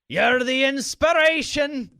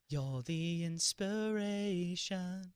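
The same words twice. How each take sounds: First: It is said in an Irish-sounding accent. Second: It is said in a British-sounding accent.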